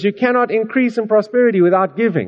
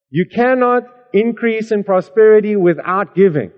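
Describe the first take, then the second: First: It is said at normal speed. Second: It is said slowly.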